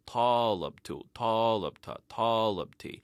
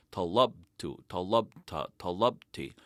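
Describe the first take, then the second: First: Talabtu, talabta, talabti with the stress on the first syllable, TAlabtu; accent up front on each form, TA-lab-ta. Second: Talabtu, talabta, talabti with the stress on the middle syllable, laBTU; stress on second to last syllable. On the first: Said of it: "we put the accent on the first syllable". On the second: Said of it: "our accent is on the second to last syllable". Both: Shown as a demonstration.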